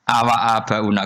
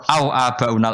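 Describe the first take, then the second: First: The waw is followed by a short 'a' vowel. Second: The waw is silent, with no vowel after it. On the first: It is read as a question joined with 'and'. "fathai wawu" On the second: It is read with the conjunction meaning 'or'. "bisukunil wawi"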